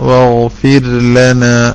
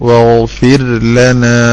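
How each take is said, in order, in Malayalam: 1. "l"-ന് മുമ്പ് "r" വ്യക്തമായി പിടിച്ചുനിർത്തുന്നു. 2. "l"-ന് മുമ്പ് "r" വ്യക്തമായി പിടിച്ചുനിർത്തുന്നു.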